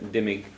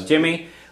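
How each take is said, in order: First: The first sound is like a D. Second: The first sound is like a J. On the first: This is the Southern way of saying it. "in the South or something. Okay, they pronounce the D more like a D" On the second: This is the Western way of saying it. "a little bit more Western"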